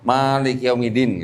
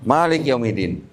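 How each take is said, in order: First: The first vowel of Malik is drawn out long. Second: The first vowel of Malik is short and quick. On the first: The word means the ruling master. "Kalau kita panjang Malik artinya penguasa" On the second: The word means king. "Cepet gitu"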